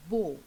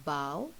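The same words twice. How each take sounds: First: "bow" rhyming with go; bow as neckwear. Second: "bow" rhyming with cow; bow as bending. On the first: Teacher showing children a neck bow, "bow" rhyming with go. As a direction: say "bow" with a long o, as in a bow tie. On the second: Teacher showing children bowing to elders, "bow" rhyming with cow. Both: Shown as a demonstration. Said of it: "the pronunciation is slightly different".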